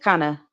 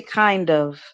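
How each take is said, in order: First: "kinda" run together as one word; blended kinda. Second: "kind of" as two full words; separated kind of. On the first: Showing the co-host how words blend, slurred "kinda". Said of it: "we'll say kinda". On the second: Showing the co-host the unblended form, full "kind of". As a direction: sound the D and the V in "kind of". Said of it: "I didn't say kind of". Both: Shown as a demonstration.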